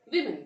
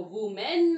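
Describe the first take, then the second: First: विमेन said as "wi-men", with a short "i"; विमेन with a short "i" sound; correct pronunciation. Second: वुमेन said as "woo-men", the way not to say it; वुमेन with "oo", marked as wrong; wrong pronunciation shown. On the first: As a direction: say विमेन with "wi" at the start, the right way. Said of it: "आपको विमेन कहना है". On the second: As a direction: say वुमेन with an "oo" in the first syllable, as the mistake. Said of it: "आपको वुमेन नहीं बोलना है". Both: Shown as a demonstration.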